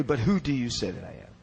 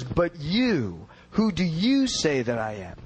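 First: Said in the usual way. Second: Emphatic stress on both YOUs. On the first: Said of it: "Not merely". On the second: Shown as a demonstration. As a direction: lean hard on "you" each time, drawn out and falling.

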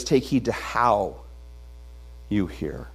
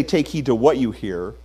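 First: "how" lingered on, the phrase slowed and fading low; slow stress on HOW. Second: "what" given the main weight; stress on WHAT. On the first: The pastor giving the verse's true reading, slow stress on "how". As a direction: lean into the word "how", then let "you hear" drop away. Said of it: "that's an interesting way to say it". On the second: The pastor contrasting a misreading of the verse, stress on "what". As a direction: hit the word "what" as the wrong reading. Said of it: "He says". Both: Shown as a demonstration.

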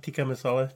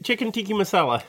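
First: "tikka" ending in a short uh, not ee; careful, softer "tikka masala" with an uh ending; corrected to tikka. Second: "tiki" ending in an ee sound; "tiki masala" with ee in place of the final a of tikka. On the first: Shown as a demonstration. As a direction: say "tikka" with an unstressed a at the end. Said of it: "I'm not saying it right". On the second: Real, not acted. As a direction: say "tiki" to rhyme with sneaky. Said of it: "Are you saying tiki masala?".

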